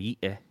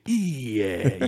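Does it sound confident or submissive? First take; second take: submissive; confident. First: It is said meekly, like an embarrassed child. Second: It is said boldly, like a challenger.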